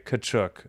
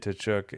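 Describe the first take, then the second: First: The initial T sound is silent. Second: The initial T sound is pronounced. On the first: The speaker calls it right. "It is silent" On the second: The speaker calls it wrong. "I always thought it was the T"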